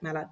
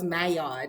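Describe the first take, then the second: First: The double L is said as an L sound. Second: The double L is said as a Y sound. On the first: "I did pronounce that right, right?" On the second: "sometimes the double L is a Y"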